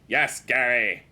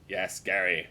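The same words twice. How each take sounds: First: Raised, emphatic "Yes, Gary"; forceful loud reply; louder insistent repeat. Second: Said in the usual way. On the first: Acted. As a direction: push it out loud, as if he didn't hear.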